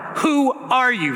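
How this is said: The voice sounds angry and defensive. The man is ready to defend himself. "more an angry, sort of ready to defend his life and his grain pile"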